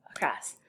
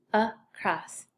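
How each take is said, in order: First: Said in the usual way. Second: "across" as "uh", short gap, "cross"; split by syllable. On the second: Shown as a demonstration. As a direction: break "across" into two syllables. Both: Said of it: "First syllable".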